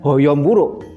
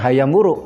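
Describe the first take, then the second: First: The first word has rounded 'o' vowels. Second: The first word has open 'a' vowels. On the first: The speaker calls it wrong. "bukan Hoyom Wuruk" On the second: The speaker calls it right. "membacanya tetap Hayam Wuruk"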